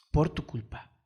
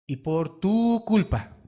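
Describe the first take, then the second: First: Said in the usual way. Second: Lento y fuerte sobre tu; acusación enfática. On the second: Acted. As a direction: recalca la culpa, despacio. Acusa a los padres despacio. (predicador culpando a los padres, lento y fuerte)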